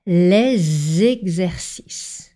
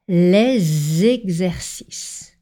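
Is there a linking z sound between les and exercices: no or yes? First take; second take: yes; yes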